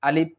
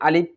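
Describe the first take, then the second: No difference in how they are said.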